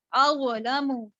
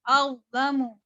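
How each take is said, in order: First: अवलमु with an echo vowel before the L; wrongly bounced consonant. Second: अवलमु with the sound before L held, no echo; hold, then move straight into lamu in अवलमु; held consonant. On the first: Teacher showing how she did not read, अवलमु with qalqalah. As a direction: break अवलमु into aw-uh-lamu. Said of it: "अवलमु ऐसे नहीं पढ़ा". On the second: Teacher modelling the held reading, अवलमु without a bounce. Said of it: "जमाओं के साथ पढ़ा". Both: Shown as a demonstration.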